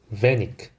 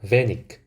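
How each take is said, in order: Both takes have the same delivery.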